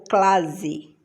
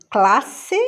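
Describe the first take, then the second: First: "clase" with a buzzing Z; Z sound. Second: Said in the usual way. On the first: Shown as a demonstration. Teacher offering the wrong option, "clase" voiced with Z. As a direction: say "clase" as CLA-zi. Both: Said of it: "Som de sé".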